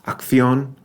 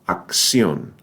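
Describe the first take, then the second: First: The cc is pronounced as a kth sound. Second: The cc is pronounced as a ks sound. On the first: "in much of Spain, where it's the K sound combined with the T H sound in thanks" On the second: "pronounced like the X in... maximum. So a K S together sound"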